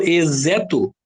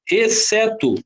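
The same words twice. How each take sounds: First: "exeto" with a z sound instead of s; wrong pronunciation demo. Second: "exceto" with an s sound; "exceto" set out clearly with a hissed s; pronunciation demo. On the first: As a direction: say "exeto" as "ezeto". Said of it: "Não, então essa aqui não é". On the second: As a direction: say "exceto" carefully as "esseto". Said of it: "tem o som da letra Z". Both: Shown as a demonstration.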